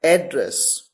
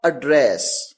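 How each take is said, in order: First: एड्रेस with stress on the first syllable, AD-dress; noun pronunciation. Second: एड्रेस with a light schwa first and stress on DRESS; verb pronunciation. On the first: Teacher demonstrating the noun एड्रेस, stressing AD-dress. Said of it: "word है A double D R E double S". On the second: Teacher demonstrating the verb एड्रेस, stressing ad-DRESS. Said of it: "यहां पर इसे कैसे pronounce किया गया?". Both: Shown as a demonstration.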